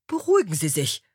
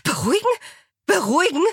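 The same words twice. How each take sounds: First: Said in the usual way. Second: High, incredulous rising question; outraged echo. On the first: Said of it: "bat Angela". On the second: A narrator's reading. Alexa echoing Angela's plea, high outraged disbelief. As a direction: throw the word back in indignation. Alexa throws the word back.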